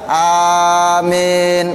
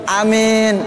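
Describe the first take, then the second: First: The first vowel is long, with a single m. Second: The first vowel is short, with a single m.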